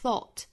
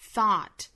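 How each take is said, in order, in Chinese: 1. 这个元音是英式的，嘴唇收圆得更紧。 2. 这个元音是美式的，嘴张得更大。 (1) "英式发法是口型更加聚拢的thought" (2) "美式发法呢是thought，上下开口都更大一些"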